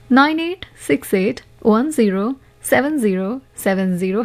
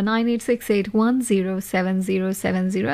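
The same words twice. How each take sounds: First: The number is read slowly. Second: The number is read at normal speed.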